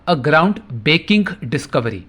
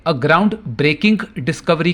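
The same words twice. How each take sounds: First: "baking" said with no R after the B; dropped-R misspelling. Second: Said in the usual way. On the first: Shown as a demonstration. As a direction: read out the slip "baking", leaving out the R. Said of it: "syllable आरई को लिखा ही नहीं". ("baking" में र की आवाज़ छोड़कर) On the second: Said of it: "यानी ब्रेकिंग इस शब्द में मौजूद".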